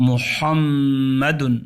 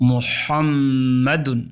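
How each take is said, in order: The two takes are said the same way.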